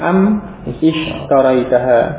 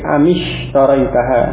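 First: The two words are said separately, without linking. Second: The words are joined with an 'i' after 'm'. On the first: This is the underlying form before linking. "asalnya am ishtaraitaha" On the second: This is how the phrase is actually pronounced. "sehingga am yang semula sukun di kasrah"

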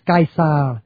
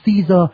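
First: The name is said with classical Latin pronunciation. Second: The name is said with English pronunciation. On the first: "đọc theo tiếng La Mã cổ là" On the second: "tiếng Anh gọi là ông Caesar"

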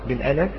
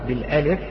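Both takes have the same delivery.

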